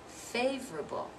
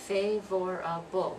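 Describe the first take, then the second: First: It is said with three syllables. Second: It is said with four full syllables. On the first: The speaker calls it right. "We're dropping that second syllable" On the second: The speaker calls it wrong. "we don't say favorable, which is four syllables"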